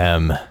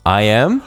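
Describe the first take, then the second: First: It sounds firm and commanding, like a statement. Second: It sounds unsure, rising like a question. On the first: "That was more commanding" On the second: "I said that with a question mark"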